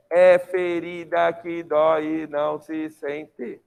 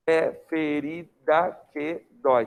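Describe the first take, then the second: First: Slow, even, every syllable separated; grammatical syllable count. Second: Slow, measured poetic syllables; poetic scansion. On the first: Teacher scanning the line for the class, every grammatical syllable evenly separated. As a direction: sound out "é ferida que dói e não se sente" syllable by syllable. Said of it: "Isso é sílaba gramatical". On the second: Teacher showing poetic syllable count, slow measured scansion. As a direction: sound out "É ferida que dói" slowly, in spaced poetic beats. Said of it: "Em sílaba poética, olha como é que você vai fazer".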